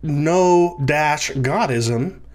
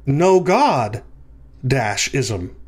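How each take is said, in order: First: Drawn-out "no dash", then "Godism" kept whole; break after "no". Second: "no God" together, a pause, then "dash ism"; break after "God". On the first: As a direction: slowly separate "no" from "Godism". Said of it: "it's not". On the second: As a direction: set "ism" apart from "no God". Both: Shown as a demonstration.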